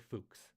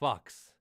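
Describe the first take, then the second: First: The vowel sounds like the start of 'Fukuoka'. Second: The vowel sounds like the one in 'ducks'. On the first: The speaker calls it right. "because it's like Fukudoma, Fukuoka" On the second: The speaker calls it wrong. "I really don't think that's how you pronounce that"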